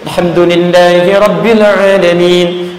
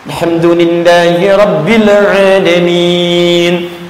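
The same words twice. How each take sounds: First: The phrase is recited at a quick pace. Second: The phrase is recited at a slow pace. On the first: "hadar itu yang agak cepat" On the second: "Bisa dengan jeda"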